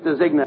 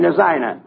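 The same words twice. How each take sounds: First: "designer" slipped into "dezigner", hard g; mispronounced designer. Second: Said in the usual way. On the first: Acted. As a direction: say "designer" as dez-IG-ner. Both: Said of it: "I mean, designer".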